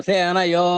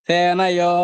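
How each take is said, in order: Both takes have the same delivery.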